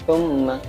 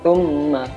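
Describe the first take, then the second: No difference in how they are said.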